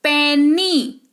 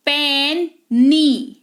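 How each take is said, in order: First: पेनी as one word, "pen-nee", long ending; teaching pronunciation of पेनी with a clear "ee"; final Y as EE. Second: पेनी very slowly as "pen... nee"; syllable demo of पेनी, "pen" then "nee"; two separated syllables. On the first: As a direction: say पेनी joined up, holding the "nee". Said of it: "ई के तौर पर आता है". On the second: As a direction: split पेनी in two, each half drawn out. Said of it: "ये सारे दो syllable हैं". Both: Shown as a demonstration.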